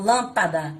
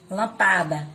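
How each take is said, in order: First: Lâmpada stressed on the first syllable: LÂM-pa-da; teacher model, lâmpada stressed on LÂM; correct stress. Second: Lampada read without the accent, stress on pa: lam-PA-da; mock mistake, Lampada with stress moved to pa; wrong stress. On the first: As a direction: lean on lâm in lâmpada, then let pa-da fall away. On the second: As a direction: misread Lampada as lam-PA-da, stressing the second syllable. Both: Shown as a demonstration. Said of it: "eu falo ela mais forte".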